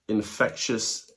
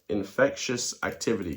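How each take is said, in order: First: "infectious" stretched out slowly, each syllable leaned on; drawn-out emphasis. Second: Said in the usual way. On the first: Shown as a demonstration. Vlogger stressing "infectious" slowly to his viewers. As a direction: drag out "infectious" to make it sink in.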